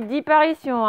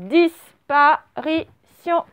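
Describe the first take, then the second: First: "disparition" said as di-parition, without the first S; wrong take, S dropped. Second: "disparition" slow, split DISS-pa-ri-tion; S clearly sounded. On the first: Teacher shows what was not said, "disparition" without its S. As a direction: say "disparition" unbroken, leaving out the S before P. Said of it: "J'ai pas dit disparition". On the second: Teacher corrects the word for pupils, "disparition" as slow diss-pa-ri-tion. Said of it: "c'est disparition". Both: Shown as a demonstration.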